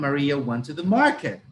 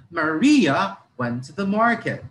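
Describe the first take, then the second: First: "market" stressed at the end with a firm fall; teacher contrasting a stress on "market". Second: "Maria" said louder and longer, sentence falling after it; teacher contrasting a stress on "Maria". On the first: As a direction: land the weight on "market". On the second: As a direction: push "Maria" up front. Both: Shown as a demonstration. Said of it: "See the difference?".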